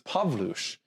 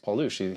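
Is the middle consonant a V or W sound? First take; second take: V; W. First: The middle consonant sounds like a V. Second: The middle consonant sounds like a W. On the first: It is the proper Polish pronunciation. "W is a V sound in Polish. So it's Pawlusz" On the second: It is the familiar everyday pronunciation. "It's, it's Paulush"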